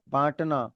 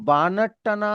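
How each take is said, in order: First: The vowel before t is nasalized, no full n. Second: A full n consonant is said before t. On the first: The speaker calls it right. "Clear हो जाता है nasal sound" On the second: The speaker calls it wrong. "अगर आप बोलोगे तो वो गलत है"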